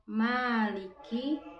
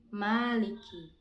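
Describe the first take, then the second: First: The first vowel is held long. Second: The first vowel is kept short.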